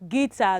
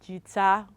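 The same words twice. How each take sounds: First: The u after the g is not pronounced. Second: A u sound is pronounced after the g. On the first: The speaker calls it right. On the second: The speaker calls it wrong. "not guitar"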